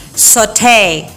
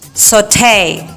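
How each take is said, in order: First: It is said in an American English accent. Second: It is said in an American English accent.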